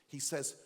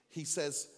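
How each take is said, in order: Both takes have the same delivery.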